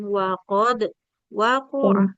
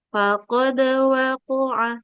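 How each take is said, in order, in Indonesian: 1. Ada jeda di antara kedua kata. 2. Kedua kata itu menyambung tanpa jeda. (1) "jangan dijeda ya, jangan" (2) "tanpa jeda"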